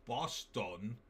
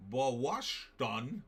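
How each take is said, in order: First: Said in the usual way. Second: Boston said as "Bawshton", with a long aw vowel and a sh sound; odd pronunciation of Boston. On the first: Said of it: "having to say". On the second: Retold or imitated. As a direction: stretch Boston into "Pawashton" on a rising tune. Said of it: "I thought it was pronounced".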